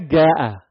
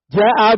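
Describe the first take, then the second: First: The word begins with a hard g sound. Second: The word begins with a j sound. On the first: Aden dialect form. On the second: Standard Arabic form.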